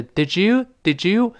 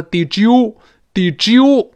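First: "did you" run together lightly, ending on a rise; unstressed "did you". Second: "did you" forced out high and loud; overstressed "did you". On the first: Teacher models "did you" for learners, lightly linked. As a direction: say "did you" as an easy, unforced blend. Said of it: "但不能用力". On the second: Teacher shows learners the mistake, overstressed "did you". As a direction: punch "did you" too hard. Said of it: "不能用力气哦". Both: Shown as a demonstration.

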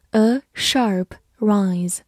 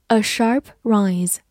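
First: "a sharp rise" slowly, each word apart; slow model reading. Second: Said in the usual way. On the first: Shown as a demonstration. Teacher repeats a phrase for learners, slow model reading. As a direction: separate "a", "sharp" and "rise" with pauses.

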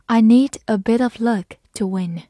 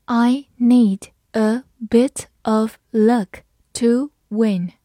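First: Said in the usual way. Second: Word-by-word slow teacher reading; very slow model sentence with gaps between words; slow read-aloud. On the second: Shown as a demonstration. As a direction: give each word its own beat, slowly. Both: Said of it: "好，慢慢来读".

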